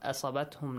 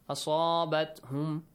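First: The vowel after the s is short. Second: The vowel after the s is prolonged. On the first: The speaker calls it wrong. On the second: The speaker calls it right.

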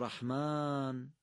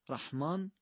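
First: The long 'a' vowel is drawn out. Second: The long 'a' vowel is cut short. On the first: The speaker calls it right. "قطعا دومی درسته" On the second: The speaker calls it wrong. "ما صدای آ رو نمیتونیم کوتاه بکنیم"

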